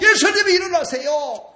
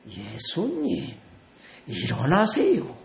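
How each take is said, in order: First: It is said urgently, in a panic. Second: It is said calmly and with composure.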